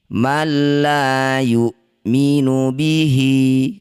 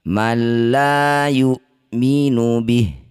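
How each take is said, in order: First: The last word ends with a vowel. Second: The last word ends on a bare consonant. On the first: The reading continues. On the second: The reading stops here.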